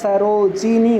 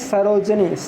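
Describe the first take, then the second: First: A short i vowel is heard between j and n. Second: No vowel is heard between j and n. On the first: The speaker calls it right. "सरोजिनी होता है" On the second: The speaker calls it wrong. "हम बोलते हैं सरोजनी, सरोजनी नहीं होता"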